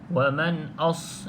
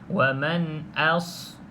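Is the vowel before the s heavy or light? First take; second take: heavy; light. First: The vowel before s is heavy, like o. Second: The vowel before s is light, a clear a. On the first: The speaker calls it wrong. "huruf a ni ditebalkan menjadi o ... itu hamzah tebal" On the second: The speaker calls it right. "Hamzah ni tidak tebal. Maka perlu jelaskan a"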